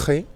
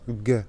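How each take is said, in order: First: "G" as a throaty khe; guttural Spanish G. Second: "G" as a hard gue, as in go. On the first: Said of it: "c'est le son R". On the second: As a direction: say "G" as a stopped hard g. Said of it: "ou se pronuncia G". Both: Shown as a demonstration.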